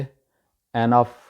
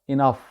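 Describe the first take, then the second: First: The word begins with an 'e' vowel. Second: The word begins with an 'i' vowel. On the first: The speaker calls it wrong. "बोला जाता है गलत तरीके से एनफ" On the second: The speaker calls it right. "Actual इसका तलफ़ुज़ है इनफ"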